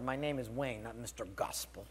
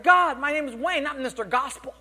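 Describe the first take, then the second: First: Low, softened retold grumble; muttered retort. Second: High, loud, hammed-up whine to God; indignant complaint. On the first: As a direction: grumble it under your breath, sinking lower. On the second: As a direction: protest upward like someone deeply affronted. Retold complaint to God in car.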